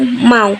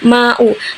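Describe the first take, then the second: First: The two vowels glide together in one syllable. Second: The two vowels are split into two syllables. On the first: The speaker calls it right. "tapi langsung mau dengan bunyi vokal yang rangkap" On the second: The speaker calls it wrong. "bukan dibaca"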